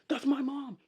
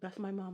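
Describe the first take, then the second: First: It is said urgently and protectively. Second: It is said casually and indifferently.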